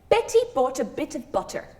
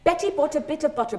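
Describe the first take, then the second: First: It is said at a slower pace. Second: It is said at a very fast pace.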